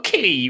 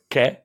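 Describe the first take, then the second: First: The vowel sounds like 'ee'. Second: The vowel sounds like 'ay'. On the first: The speaker calls it wrong. "stop saying qui" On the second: The speaker calls it right. "you heard him go, que?"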